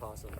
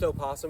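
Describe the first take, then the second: First: The word starts directly with a p sound. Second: The word starts with an extra vowel sound. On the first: "pronounced possum" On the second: "pronounced opossum"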